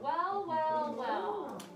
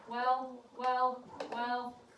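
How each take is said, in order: First: It is said with lively, varied expression. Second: It is said flat and monotone, like a robot. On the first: The speaker calls it right. "She read with expression" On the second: The speaker calls it wrong. "I sound like a robot"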